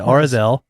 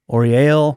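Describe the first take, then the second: First: The name is said with a z sound. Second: The name is said without a z sound. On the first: The speaker calls it right. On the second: The speaker calls it wrong.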